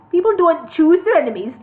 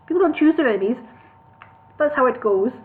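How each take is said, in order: First: Put-on "people don't choose their enemies" in Newcastle accent. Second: Higher Birmingham voice for Bingo; Birmingham accent. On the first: Bingo retaking the line in Newcastle accent. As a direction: Geordie vowels throughout. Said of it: "I'll start that again". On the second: Acted. Bingo questioning elf lord in Birmingham accent. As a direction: Brummie voice, louder. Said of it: "the wrong accent".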